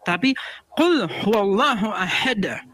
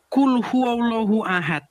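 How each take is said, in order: First: The final d of ahad ends with an echoing bounce. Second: The final d of ahad ends flat, without a bounce. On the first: The speaker calls it right. "Harus ahad gitu" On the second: The speaker calls it wrong. "bacanya bukan Qul huwallahu ahad"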